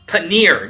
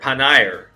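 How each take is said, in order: First: The last syllable rhymes with 'sneer'. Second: The last syllable rhymes with 'hair'. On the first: "near, like sneer" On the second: "Nair, Nair"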